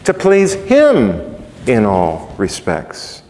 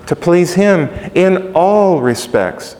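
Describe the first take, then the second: First: The phrase is said smoothly without extra emphasis. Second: Every word in the phrase is separately emphasized.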